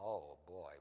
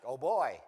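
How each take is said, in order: First: It is said with worried, exasperated dismay. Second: It is said with delighted, joyful excitement. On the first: The situation is a troubling problem. "what do we do with him?" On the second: The birth is a happy, welcome surprise. "We've got Isaac"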